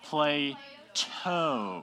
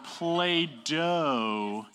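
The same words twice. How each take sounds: First: PLATO split in two, crisp t, "play... toe"; correct name demo. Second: PLAY-DOH drawn out with a clear d, "play-dough"; wrong name demo. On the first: Teacher correcting students on the philosopher's name, syllable-by-syllable pronunciation. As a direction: sound out PLATO slowly with a true t. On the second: Teacher correcting students on the philosopher's name, exaggerated wrong version. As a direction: stretch PLAY-DOH slowly, stressing the d sound. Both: Shown as a demonstration. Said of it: "not Play-Doh".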